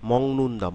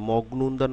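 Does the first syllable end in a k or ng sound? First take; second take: ng; k. First: The first syllable ends with an ng sound. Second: The first syllable ends with a k sound. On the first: This is how it is said in the word. The speaker calls it right. "আমরা কি বলি? মং" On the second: This is not how it is said in the word. The speaker calls it wrong. "মগনুন্দা না বলে"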